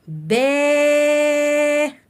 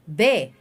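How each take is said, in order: First: The vowel after b is drawn out long. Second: The vowel after b is short. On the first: "عايز اقرا الباء مد بالالف" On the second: "انطقيها بحركة قصيرة، ما تطوليش في نطقها"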